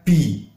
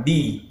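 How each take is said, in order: First: Slow bi with a breathy release; wrong airy bi. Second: Short clear voiced bi; correct bi. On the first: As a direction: say "bi" with air. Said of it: "bukan bi". ("bi" salah berangin) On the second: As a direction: say "bi" firm without air. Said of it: "Jadi ini dibaca bi". ("bi" jelas) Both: Shown as a demonstration.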